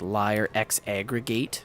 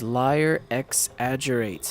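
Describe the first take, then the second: First: The second word is said as 'X aggregate'. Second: The second word is said as 'exaggerates'. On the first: The speaker calls it wrong. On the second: The speaker calls it right.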